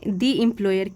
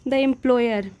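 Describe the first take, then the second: First: The word 'the' is said with a long 'ee'. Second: The word 'the' is said with a short 'uh'. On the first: The speaker calls it right. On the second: The speaker calls it wrong.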